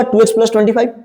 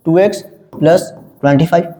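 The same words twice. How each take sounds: First: Said in the usual way. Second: "टू x, plus, twenty five" in separate, lower chunks; piece by piece. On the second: Shown as a demonstration. Teacher writes out the expression for class, piece by piece. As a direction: dictate it with gaps between the terms.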